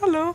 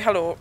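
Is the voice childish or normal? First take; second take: childish; normal. First: It is said in a childish, mocking voice. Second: It is said in a normal adult voice.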